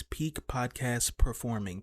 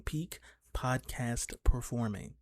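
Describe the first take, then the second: First: Slow drawn-out. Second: Stretched vocal warm-up delivery; slow drawn-out, softer. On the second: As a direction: draw each word out slowly. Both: Pretend. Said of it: "vocal warm-up things".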